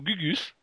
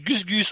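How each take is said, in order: First: No S sound ends the first syllable. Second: An S sound ends the first syllable. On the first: The speaker calls it wrong. "Je voudrais pas dire Gugus" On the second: The speaker calls it right. "Il y a un S"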